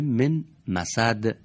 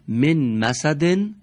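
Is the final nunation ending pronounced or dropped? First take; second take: dropped; pronounced. First: The phrase ends on a silent final consonant. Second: The phrase ends with a vowel and n sound. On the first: The reader stops on this word. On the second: The reader continues without stopping.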